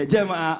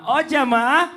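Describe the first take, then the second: First: Said in the usual way. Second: Loud, high call to the audience; rally the crowd, stretching jamaah up. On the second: Acted. Host calls to the audience. (seruan lantang ke jamaah)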